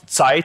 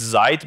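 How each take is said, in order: First: The word has a German-style pronunciation. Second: The word has an American-style pronunciation. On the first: The speaker calls it wrong. "It's not Zeit" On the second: The speaker calls it right. "it's Zeit because it's American"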